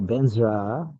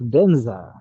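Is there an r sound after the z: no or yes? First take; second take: yes; no. First: A slight r sound follows the z. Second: There is no r sound after the z.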